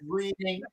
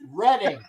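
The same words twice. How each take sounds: First: It sounds like the everyday word 'reading'. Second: It does not sound like the everyday word. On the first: It is read the way it is spelled. The speaker calls it wrong. "I know it looks like it says reading" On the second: It names the town in Pennsylvania. The speaker calls it right. "It's Reading"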